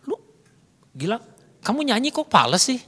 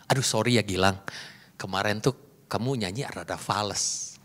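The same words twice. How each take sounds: First: Blunt reproach, pitch jumping up on the complaint; blunt displeasure. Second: Soft, low apologetic criticism; polite. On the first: Speaker to Gilang, bluntly faulting his off-key singing, displeased. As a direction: criticise directly without any sugarcoat. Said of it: "muka saya udah nggak enak". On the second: Speaker to Gilang, softening criticism of his singing, politely. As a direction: sugarcoat it gently, voice lowered. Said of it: "ngomongnya politely". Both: Shown as a demonstration.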